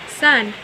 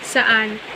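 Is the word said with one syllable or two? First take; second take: one; two. First: The word is squeezed into one short syllable. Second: The word is said with two full syllables. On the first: The speaker calls it wrong. "kadalasang binibigkas ay" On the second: The speaker calls it right. "ang salitang "saan""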